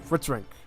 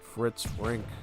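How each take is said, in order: First: The name is said quickly. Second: The name is said slowly. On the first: The speaker calls it right. "Sounds better when you say it fast" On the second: The speaker calls it wrong. "So it doesn't sound that good"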